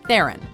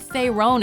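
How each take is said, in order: First: The name rhymes with heron. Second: The name does not rhyme with heron. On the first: The speaker calls it right. "Charlize pronounces her last name like this" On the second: The speaker calls it wrong. "You've probably heard Theron at some point"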